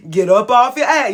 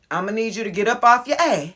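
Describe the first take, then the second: First: Louder, punchier repeat of the command; a firm, emphatic push to get moving. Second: Quick, sassy demand; a playful, sassy push; sassy command. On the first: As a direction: hit it harder the second time. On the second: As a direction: tell them to get moving with attitude. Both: Shown as a demonstration. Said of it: "You see how I did it?".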